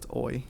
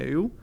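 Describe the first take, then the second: First: The vowel sounds like 'oy'. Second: The vowel sounds like 'you'. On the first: This is the German way of reading the letters. The speaker calls it right. "I know it's oi. You pronounce that as oi" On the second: This is the English habit for reading the letters. The speaker calls it wrong. "if I'm speaking in English, I have the tendency of call it e- eu"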